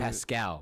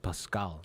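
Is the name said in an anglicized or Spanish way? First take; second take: anglicized; Spanish. First: The name is said with an English pronunciation. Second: The name is said with a Spanish pronunciation. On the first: This is the version given to outsiders. "I tell white people it's Pascal" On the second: This is how the family says it. "but my family pronounces it Pascal"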